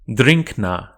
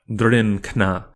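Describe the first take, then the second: First: The nasal before k is an ng sound. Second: The nasal before k is a plain n. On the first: The speaker calls it right. "is realized as eng, that is an N G sound" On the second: The speaker calls it wrong.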